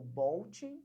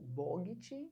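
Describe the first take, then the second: First: It is said with an l before the t. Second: It is said with two syllables, bo-git. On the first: "você não acertou" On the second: "você não acertou"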